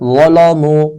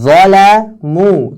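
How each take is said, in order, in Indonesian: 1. L diucapkan tebal dan berat. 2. L diucapkan tipis dan ringan.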